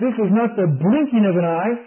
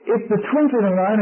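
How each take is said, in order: First: "blinking" picked out as the wrong word; stress on BLINKING. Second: "twinkling" picked out as the correction; stress on TWINKLING. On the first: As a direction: lean on "blinking" to rule it out. Preacher contrasts blinking with twinkling. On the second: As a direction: lean on "twinkling" to set it right. Preacher corrects blinking to twinkling. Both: Real, not acted.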